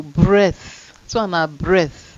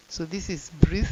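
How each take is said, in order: First: Breath with short E and th; short-vowel breath. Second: Long-vowel breathe. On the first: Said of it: "make una no confuse am". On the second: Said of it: "difference is in the ending". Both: Shown as a demonstration.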